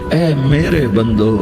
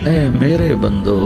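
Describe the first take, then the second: No difference in how they are said.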